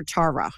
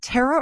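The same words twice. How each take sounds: First: Tara with an open "ah" first vowel; name pronunciation check. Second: Tara with the first vowel as in "air"; name pronunciation check. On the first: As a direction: say Tara as TAR-uh. Offers the other way of saying it. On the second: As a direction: say Tara as TAIR-uh. Asks which way name is said. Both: Shown as a demonstration.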